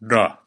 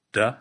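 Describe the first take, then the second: First: "duh" with a firm Klingon D; Klingon D sound. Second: "Duh" with an English D, tongue tip on the ridge behind the teeth; "Duh" with a plain English D; English D sound. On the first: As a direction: hit "duh" with the Klingon D, tongue farther back. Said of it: "and then the Klingon D sound". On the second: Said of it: "I'm gonna say an English D sound". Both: Shown as a demonstration.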